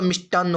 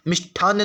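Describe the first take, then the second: First: मिष्टान्न with unaspirated ṭ, "mish-ṭaan"; correct pronunciation. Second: मिष्ठान्न with aspirated ṭh, "mish-ṭhaan"; wrong pronunciation. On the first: Teacher giving the correct form, मिष्टान्न said with plain ṭ. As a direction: say मिष्टान्न with no puff after ṭ. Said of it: "होता है". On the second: Teacher rejecting the faulty form, मिष्ठान्न said with aspirated ṭh. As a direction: say मिष्ठान्न with a puff of air after ṭ. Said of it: "नहीं होता". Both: Shown as a demonstration.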